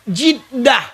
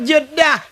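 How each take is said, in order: First: The first vowel sounds like 'i'. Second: The first vowel sounds like 'e'. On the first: This form means grandmother. The speaker calls it right. "Jiddah tu nenek perempu" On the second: This is the common way people say the name. The speaker calls it wrong. "Sebenarnya kan Jeddah"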